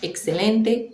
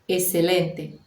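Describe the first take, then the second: First: The x is said as a ks sound. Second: The x is said as a plain s sound. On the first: This is the standard, careful pronunciation. "o X com som de K S" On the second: This is informal, less careful speech. "ouve-se apenas o som do S"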